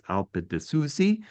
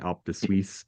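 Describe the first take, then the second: First: The last word ends with an 'ee' vowel. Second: The last word ends without a final vowel. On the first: The speaker calls it right. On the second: The speaker calls it wrong. "I was saying"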